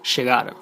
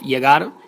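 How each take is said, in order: First: The ll is said as a sh sound. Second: The ll is said as a y sound.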